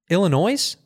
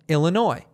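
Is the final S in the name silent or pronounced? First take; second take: pronounced; silent. First: The final S sound is pronounced. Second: The final S sound is silent. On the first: The speaker calls it wrong. "How do you not know how to do that?" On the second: The speaker calls it right. "The silent S's in the Midwest"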